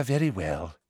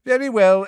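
First: Soft, resigned and weary; quiet weary. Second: High, loud weary sigh; weary, raised. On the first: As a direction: let it drop away tiredly. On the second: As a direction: lift it wearily before settling. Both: A narrator's reading. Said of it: "sounding slightly weary".

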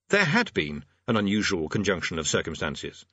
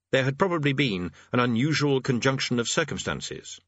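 First: HAD leaned on, then a short break; stress on HAD. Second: Said in the usual way. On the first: A narrator's reading. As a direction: hit the word "had" firmly.

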